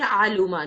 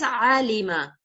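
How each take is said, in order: First: The vowel after the L is u. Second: The vowel after the L is i. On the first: The speaker calls it wrong. "these are wrong pronunciations" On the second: The speaker calls it right. "It is always alima"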